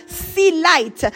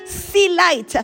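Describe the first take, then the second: No difference in how they are said.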